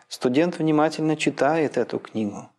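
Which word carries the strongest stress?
читает. The main stress falls on the word читает. "Логическое ударение может ползти дальше влево"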